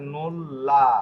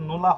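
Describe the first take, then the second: First: The L sound is long, a doubled L. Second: The L sound is short, a single L. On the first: "Italian ভাষায় এটা নোল্লা, double এল এর উচ্চারণই হবে" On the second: "এটা ইংরেজি ভাষার মতো নোলা হবে"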